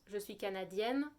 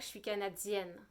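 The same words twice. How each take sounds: First: The 'd' before 'i' is a plain stop. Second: The 'd' before 'i' has a hissing 'dz' release. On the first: This is how it is said in France. "En France" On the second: This is how it is said in Quebec. "au Québec... Un peu plus T, T, D"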